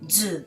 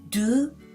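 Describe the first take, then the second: First: The syllable begins with a z sound. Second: The syllable begins with a d sound. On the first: The speaker calls it right. "but zu" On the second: The speaker calls it wrong. "Not do"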